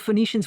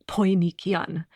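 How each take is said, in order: First: The word begins with an F sound. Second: The word begins with a P sound. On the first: This is the modern pronunciation. "we pronounce it with an F sound" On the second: This is the ancient pronunciation. "it would have been pronounced uh, Poinikian"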